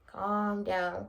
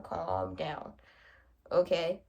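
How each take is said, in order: First: Said in the usual way. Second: Soothing self-calm. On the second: Real, not acted. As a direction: talk yourself back down gently.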